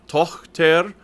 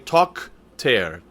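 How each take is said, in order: First: The middle consonant is a breathy ch sound. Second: The middle consonant is a hard k sound. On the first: The speaker calls it right. "Tochter is an achlaut, and it is not a K" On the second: The speaker calls it wrong. "you're not saying Tochter. That's not right"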